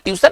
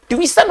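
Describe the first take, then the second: First: ट्यूशन said plainly as ट्यूसन with no glide; the wrong way to say tuition; wrong pronunciation. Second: ट्यूशन as ट्वीशन with a w glide; right way to say tuition; correct pronunciation. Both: Shown as a demonstration. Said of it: "ट्यूशन नहीं होता है".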